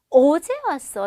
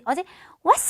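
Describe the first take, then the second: First: The stress falls on the word 어제. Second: The stress falls on the word 왔어. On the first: The time of arrival is the focus. The speaker calls it right. "했을 때는 어제 왔어 라고 해야지" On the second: The act of coming is the focus. The speaker calls it wrong. "어제 왔어 하면 안 되겠죠"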